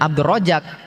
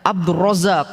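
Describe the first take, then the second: First: The middle consonant is j, with a plain ending. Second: The middle consonant is z, with an echoing final k. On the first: "nggak bilang Abdul Rojak" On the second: "ada kol-kolahnya di akhir"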